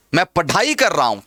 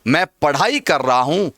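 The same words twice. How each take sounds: First: पढ़ाई with a full dh stop, no flap; wrong hard ढ. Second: पढ़ाई with a light flapped rh; everyday flapped ढ़. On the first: Teacher shows what nobody says, पढ़ाई with hard ढ. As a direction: mispronounce पढ़ाई as pa-DHAI. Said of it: "कोई नहीं बोलता ऐसा". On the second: Teacher gives the everyday usage, पढ़ाई with flapped ढ़. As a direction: let the tongue flick in पढ़ाई. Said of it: "हम लोग व्यवहार में यही बोलते हैं". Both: Shown as a demonstration.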